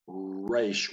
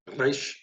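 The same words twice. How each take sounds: First: The R is made with rounded, pursed lips. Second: The R is rolled with the tongue tip. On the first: The speaker calls it wrong. "where we look like we're kissing" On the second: The speaker calls it right. "either trilling them"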